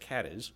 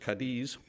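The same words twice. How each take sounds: First: The name is pronounced the American English way. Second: The name is pronounced the Spanish way. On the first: This is how the Ohio town is named. The speaker calls it right. "but in Ohio, it's Cadiz" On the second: This is how the Spanish city is named. The speaker calls it wrong. "If you were a Spanish speaker, you might be tempted to pronounce it as Cadiz"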